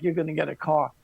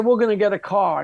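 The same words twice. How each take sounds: First: Lower, softer mocking repeat; sarcastic echo. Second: Firm, steady declaration; confident insistence. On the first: Roommates mocking his car plan, lower sarcastic echo. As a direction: toss the words back with disbelief. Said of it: "And they're like". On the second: Retold or imitated. Telling the rental skeptics firmly, confident insistence. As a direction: say it like it's already done. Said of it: "I said".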